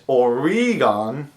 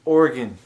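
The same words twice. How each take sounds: First: "Oregon" stretched to or-EE-gahn; "Oregon" in three beats, ending like "gone"; mispronounced Oregon. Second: "Oregon" in two beats, OR-gun; "Oregon" with the middle vowel dropped; correct local pronunciation. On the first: Retold or imitated. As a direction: mimic outsiders saying "Oregon" slowly with a long ee. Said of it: "a lot of people think it's like". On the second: Shown as a demonstration. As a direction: say "Oregon" simply, like "organ", falling. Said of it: "No, it's just".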